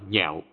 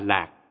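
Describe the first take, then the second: First: The syllable begins with an nh sound. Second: The syllable begins with an l sound. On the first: It means to love or be fond of. "Đọc là nhạo, có nghĩa là yêu thích" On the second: It means joy or happiness. "Đọc là lạc, có nghĩa là vui sướng"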